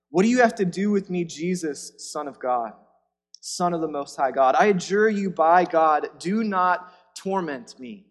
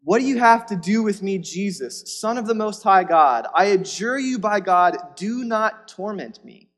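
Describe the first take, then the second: First: A possessed man's loud, urgent plea; possessed man crying out. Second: Higher and much louder, desperate; louder demon cry. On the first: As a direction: beg the man not to torment you. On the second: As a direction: throw the plea at him at full force. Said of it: "Look at his response". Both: Acted.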